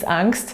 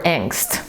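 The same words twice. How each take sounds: First: It is pronounced with a German-style vowel. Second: It is pronounced with an English-style vowel. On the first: This is how the speaker says it natively. "I'm German speaker, so for me it's angst" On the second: This is how other speakers say it. "as they say"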